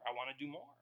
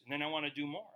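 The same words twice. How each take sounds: First: I wanna do more, repeated much softer; softly echoed I wanna do more; quieter repeat. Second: Said in the usual way. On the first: Shown as a demonstration. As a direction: let the repeat drop to an earnest hush.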